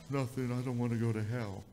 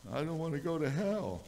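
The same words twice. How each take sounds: First: Put-on crying child's voice. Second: Put-on high, small voice of a scared boy; pleading child. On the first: Crying son tells his dad why he is upset, child's voice. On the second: Scared son repeats his fear to his dad, high child's plea. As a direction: plead it up high like a little kid.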